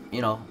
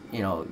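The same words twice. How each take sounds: The two takes are said the same way.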